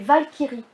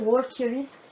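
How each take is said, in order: First: It is said the German way, starting with V. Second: It is said the English way, starting like walk. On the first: The speaker calls it right. "c'est un mot allemand. Donc c'est les Valkyries" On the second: The speaker calls it wrong. "tu l'as prononcé euh, version anglaise"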